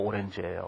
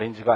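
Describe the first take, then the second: First: It is said as 'o-ren-ji', Korean-style. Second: It is said as 'a-rin-ji', English-like. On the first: The speaker calls it right. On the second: The speaker calls it wrong. "아린지가 아니고"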